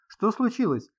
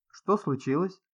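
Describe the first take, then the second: First: Higher-pitched urgent question; alarmed question. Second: Said in the usual way. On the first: A narrator's reading. Sid rushes to the screaming woman, alarmed. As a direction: ask in alarm, pitch jumping up.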